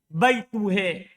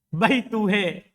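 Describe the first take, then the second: Both takes have the same delivery.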